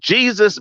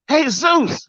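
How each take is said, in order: First: It starts with an English J sound. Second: It starts with an H sound, hey-soos. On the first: The speaker calls it wrong. "well that's not how you pronounce that" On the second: The speaker calls it right. "I knew it was Jesus"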